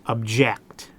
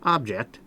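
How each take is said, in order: First: The stress is on the second syllable. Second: The stress is on the first syllable. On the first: It names an action, a verb. "the verb" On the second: It names a thing, a noun. "that's a thing"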